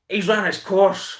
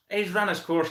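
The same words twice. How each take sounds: First: Slow and higher, leaning hard on "run"; drawn-out verdict on the coach; slow emphatic. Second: Said in the usual way. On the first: Shown as a demonstration. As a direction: stretch out "he's run his course" with weight on "run".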